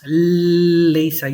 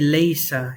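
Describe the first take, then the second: First: The l sound at the start is doubled. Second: The l sound at the start is single. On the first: The speaker calls it wrong. "You don't pronounce leisa. You don't do that" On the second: The speaker calls it right. "you just say leisa ... You just pronounce it as a regular lam"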